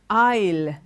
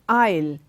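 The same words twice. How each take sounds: No difference in how they are said.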